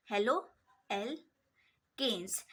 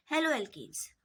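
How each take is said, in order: First: "halo alkanes" drawn out with gaps between the parts; slow, broken-up term. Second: Said in the usual way. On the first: Shown as a demonstration. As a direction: dictate "halo alkanes" slowly, piece by piece. Repeats term slowly in parts.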